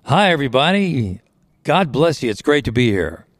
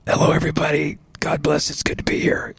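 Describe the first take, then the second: First: Mock stage hello in full voice. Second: Whispery croak, voice almost gone; hoarse, whispered hello; croaky voice. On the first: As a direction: greet a crowd in a healthy, ringing voice. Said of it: "It was full voice". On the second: Acted. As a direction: greet the crowd with laryngitis, soft and voiceless. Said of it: "you know, in my croaky voice".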